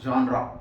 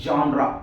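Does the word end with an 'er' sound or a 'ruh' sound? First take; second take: ruh; ruh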